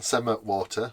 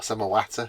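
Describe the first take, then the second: First: It is said in a plain standard accent. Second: It is said in a Yorkshire accent. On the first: The speaker calls it wrong. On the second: The speaker calls it right.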